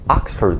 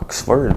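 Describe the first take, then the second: First: The first vowel is a long 'ah' sound. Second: The first vowel is a short 'o' sound. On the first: The speaker calls it right. "c'est Oxford. C'est comme deux A" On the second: The speaker calls it wrong. "pas Oxford"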